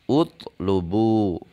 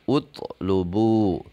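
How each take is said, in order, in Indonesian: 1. Kata ini diawali dengan vokal u. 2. Kata ini diawali dengan vokal u.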